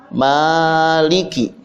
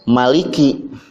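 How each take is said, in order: First: The first vowel is long. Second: The first vowel is short. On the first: "Ada yang memakai alif, dibacanya maliki. Jadi maknya pan panjang" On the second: "tidak memakai alif ya. Dibacanya maliki"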